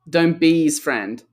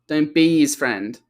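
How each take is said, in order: No difference in how they are said.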